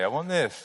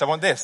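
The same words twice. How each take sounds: First: It is said fairly quietly. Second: It is said much louder.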